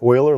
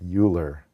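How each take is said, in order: First: The name begins with an 'oil' sound. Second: The name does not begin with an 'oil' sound. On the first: "like someone who, who wields an oil can?" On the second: "Or is it Euler?"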